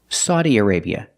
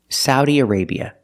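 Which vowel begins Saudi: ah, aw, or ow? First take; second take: aw; ow. First: The first vowel sounds like aw in automobile. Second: The first vowel sounds like ow in cow. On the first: "using the aw sound like an automobile" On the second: "using the sound ow like cow and how"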